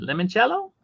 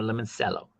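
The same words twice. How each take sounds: First: Limoncello said "lemon-CHELL-oh". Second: Limoncello said "lemon-SELL-oh"; soft S in Limoncello. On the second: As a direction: say Limoncello with an S sound, "sello". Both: Shown as a demonstration. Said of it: "Is the name Limoncello or Limoncello?".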